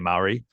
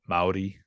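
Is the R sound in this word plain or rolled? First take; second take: plain; rolled. First: The R is said as a plain R. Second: The R is said as a rolled R. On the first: The speaker calls it wrong. "most people say Maori, um, because that's how it looks" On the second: The speaker calls it right. "it's actually like it's got like an, a rolling R"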